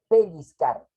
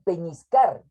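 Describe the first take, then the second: First: The middle syllable sounds like lliz. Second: The middle syllable sounds like ñis. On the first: The speaker calls it right. "Cuando la palabra es pellizcar" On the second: The speaker calls it wrong. "muchas personas dicen peñiscar"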